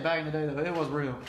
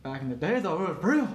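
First: Said in the usual way. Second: Jokingly insist, pushing up on the last word; mock insistence. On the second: Co-host jokes about old wrestling, mock insistence. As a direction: voice swings up on real. Joking, then repeated as legit.

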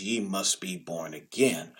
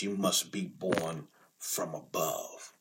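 First: Said in the usual way. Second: "from above" said slow and soft, set against "again"; stress on FROM ABOVE. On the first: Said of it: "We commonly have read it as". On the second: Shown as a demonstration. Preacher correcting the usual reading, slow and soft. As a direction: lean gently on "from above". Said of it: "in its original context".

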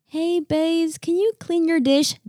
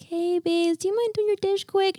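First: Higher, light nagging ask; a raised, breezy reminder; repeated ask. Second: Much higher, softer, sugary-sweet ask; sweet high request to a daughter about her dish; sweetest tone. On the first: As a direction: toss off a casual upbeat request. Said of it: "all the times of saying". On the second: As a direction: coax her gently in the sweetest voice. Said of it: "I can say in the sweetest tone". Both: Retold or imitated.

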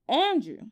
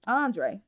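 First: "Andrew" said by mistake as plain English Andrew, AN-droo; "Andrew", mistaken name said as AN-droo; wrong name. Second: "Andre" said as AHN-dray, stress on the first syllable with a falling end; "Andre" fixed to AHN-dray with a low fall; corrected name. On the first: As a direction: slip and say "Andrew" the ordinary way, ending in oo. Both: Real, not acted. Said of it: "Now I'm chopping his name up".

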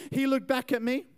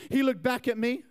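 Both takes have the same delivery.

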